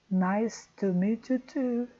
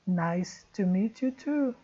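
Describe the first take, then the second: The two takes are said the same way.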